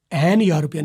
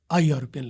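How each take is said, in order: First: "این یورپین" said as the wrong form; wrong article demo. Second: "آ یورپین" said as the correct form; right article demo. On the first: Teacher showing the wrong "این یورپین" to students. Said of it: "نہیں لگائیں گے". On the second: Teacher modelling the correct "آ یورپین" for students. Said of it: "بلکہ". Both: Shown as a demonstration.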